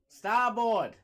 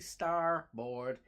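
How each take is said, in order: First: It is said in a Boston accent. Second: It is said in a general American accent. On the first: "as a dude from Massachusetts, ... I want to say" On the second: "But I have to say"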